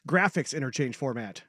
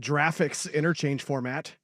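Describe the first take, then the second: First: Graphics starts with a hard g sound. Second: Graphics starts with a soft j sound. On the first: The speaker calls it right. "Hard G" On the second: The speaker calls it wrong. "It's not a"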